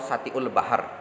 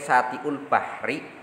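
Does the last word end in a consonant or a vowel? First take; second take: consonant; vowel. First: The last word ends on a stopped consonant. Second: The last word ends with a vowel.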